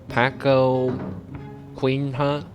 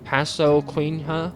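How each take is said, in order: First: The second consonant is a hard k sound. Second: The second consonant is a hissing s sound. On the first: "But it's probably not said like that" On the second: "It's like a sis sound"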